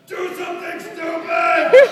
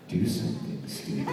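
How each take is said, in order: First: The line is yelled loudly. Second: The line is said more quietly.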